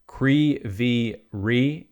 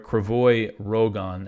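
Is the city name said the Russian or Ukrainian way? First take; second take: Ukrainian; Russian. First: The name ends with a soft 'rih' sound. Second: The name ends with a hard 'rog' sound. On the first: "as the Ukrainians pronounce it" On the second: "as the Russians say it"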